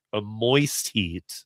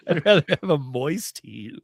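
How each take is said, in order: First: "moist heat" drawn out very slowly; slow stressed moist. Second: "moist heat" said through laughter; laughing. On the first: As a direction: lean on "moist" slowly and deliberately. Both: Shown as a demonstration.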